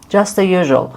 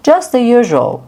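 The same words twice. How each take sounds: First: Said in the usual way. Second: "Just the usual" said higher and brighter; lively casual answer; demo reply. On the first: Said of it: "repeat plain". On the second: Shown as a demonstration. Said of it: "demo reply".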